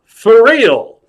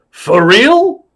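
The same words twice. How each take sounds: First: Loud, high rise then drop; emphatic confirmation. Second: Loud, high rising disbelief; Al Pacino. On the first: Clown insists to star he does magic, loud emphatic answer. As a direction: answer firmly with a big falling swoop. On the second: Star asks clown one last time, loud high query. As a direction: shoot the question upward. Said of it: "He said". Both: Acted.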